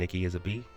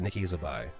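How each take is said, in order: First: The last syllable sounds like 'bee'. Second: The last syllable sounds like 'bye'. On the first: "I'm pretty sure it's Nikki as a B" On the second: "or is it Nikki as a bi?"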